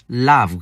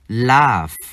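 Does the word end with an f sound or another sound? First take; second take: other sound; f sound. First: The word ends without an f sound. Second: The word ends with an f sound. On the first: The speaker calls it wrong. "chứ không đọc là laugh" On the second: The speaker calls it right. "chữ G và H chúng ta phát âm là âm F"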